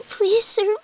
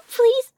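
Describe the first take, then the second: First: Said in the usual way. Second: "please" pushed out louder, higher and pleading; desperate begging. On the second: Acted.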